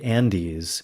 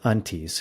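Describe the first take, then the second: First: The name is said with a d sound. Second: The name is said with a t sound. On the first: This is the Spanish version of the name. "It's more the Spanish way of saying it" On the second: This is the original local version of the name. "It's actually the Antes"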